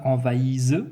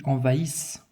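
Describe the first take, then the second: First: Envahise with a buzzing Z at the end; wrong Z pronunciation. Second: Envahissent with a hissed S, not Z; correct S pronunciation. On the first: Teacher showing pupils what not to say, envahise with a Z. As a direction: voice the final consonant of envahise as Z. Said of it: "Je ne dis pas envahise". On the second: Teacher showing pupils the right form, envahissent with a clear S. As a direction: end envahissent on a voiceless S sound. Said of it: "je dis envahissent". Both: Shown as a demonstration.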